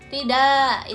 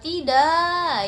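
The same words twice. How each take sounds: First: It is said short and plain. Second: It is drawn out with strong emotion. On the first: An ordinary refusal. "itu penolakan biasa" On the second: A refusal showing sadness, shock or anger. "itu bisa penolakan sedih, itu bisa terkejut, terus juga bisa marah"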